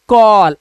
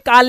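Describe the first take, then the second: First: The vowel is a rounded aw sound. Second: The vowel is an open ah sound. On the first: The speaker calls it right. "कॉल आप तो पढ़ लोगे ना" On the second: The speaker calls it wrong. "ये काल नहीं होता"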